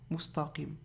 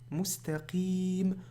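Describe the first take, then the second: First: The t sound is heavy and emphatic. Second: The t sound is light and plain. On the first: The speaker calls it wrong. "ils vont faire lourd aussi" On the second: The speaker calls it right. "prolongation à la fin"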